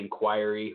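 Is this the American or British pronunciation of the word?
British. The word has the British pronunciation. "the Brits would say inquiry"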